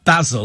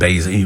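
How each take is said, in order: First: Basil is said the British way. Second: Basil is said the American way.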